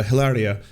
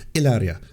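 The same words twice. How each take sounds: First: "Hilaria" with an English H sounded; the wrong "Hilaria", H pronounced; mispronounced name. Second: "Hilaria" with a silent H, Spanish style; the corrected "Hilaria", no H sound; corrected name. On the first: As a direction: say "Hilaria" starting with a clear H. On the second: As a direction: say "Hilaria" as "ilaria", dropping the H. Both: Real, not acted. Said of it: "oh, sorry, I mispronounced it".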